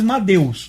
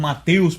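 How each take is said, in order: First: "Madeus" with a voiced d replacing the t. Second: "Mateus" with a hard t in the middle; "Mateus" in its everyday form, t sounded; familiar "Mateus" with T. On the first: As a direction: say "Madeus" as ma-DEH-oos. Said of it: "deveria ter vindo para nós Madeus". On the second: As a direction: say "Mateus" as ma-TEH-oos. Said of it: "Nós conhecemos como Mateus por causa de Theos". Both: Shown as a demonstration.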